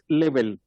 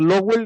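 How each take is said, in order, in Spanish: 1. El apellido suena como Level. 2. El apellido suena como Lowell. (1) "y es Level" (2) "pronuncié mal su apellido, dije Lowell"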